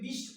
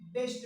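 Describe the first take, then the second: First: The B is read like the letter name 'bee'. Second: The B is read as a short 'b' sound. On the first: The speaker calls it wrong. "हम बी को ब नहीं पढ़ते हैं तो इसको क्या पढ़ते हैं, बिस्ट" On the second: The speaker calls it right. "बी E S T बेस्ट"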